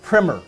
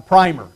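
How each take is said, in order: First: "primer" said with a short i, rhyming with swimmer; short-i pronunciation. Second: "primer" said with a long i, like prime plus er; long-i pronunciation. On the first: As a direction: say "primer" as PRIMM-er. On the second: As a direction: say "primer" as PRY-mer. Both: Shown as a demonstration. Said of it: "it's pronounced both ways".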